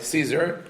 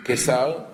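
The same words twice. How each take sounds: First: "Caesar" said the English way, SEE-zer; English pronunciation. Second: "Caesar" said the Hebrew way, keh-SAR; Hebrew pronunciation. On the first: Teacher confirming the Roman emperor's name to a listener, English pronunciation. English form after Hebrew one. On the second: Teacher naming the Roman emperor behind the city's name, Hebrew pronunciation. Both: Shown as a demonstration.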